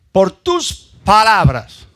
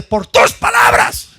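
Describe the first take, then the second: First: "Por tus palabras" slow and loud, stretching "palabras"; contrasting emphasis. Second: "Por tus palabras" slow and loud, pushed hard on "Por"; contrasting emphasis. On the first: Preacher repeats the contrast slowly to the church. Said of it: "¿qué significa esto?". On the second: Preacher contrasts God's word with ours, slow and loud. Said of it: "Quiero que ustedes vean el contraste". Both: Shown as a demonstration.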